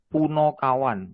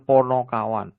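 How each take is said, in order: First: The first vowel sounds like 'u'. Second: The first vowel sounds like 'o'. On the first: This form has no meaning in the dictionary. The speaker calls it wrong. "Sebenarnya itu kurang benar" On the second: This form means clear-minded companions. The speaker calls it right. "Yang benar adalah Ponokawan"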